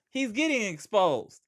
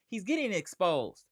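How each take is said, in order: First: It is said in an imitated, put-on voice. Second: It is said in his normal speaking voice.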